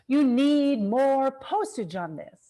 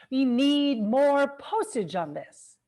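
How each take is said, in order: Both takes have the same delivery.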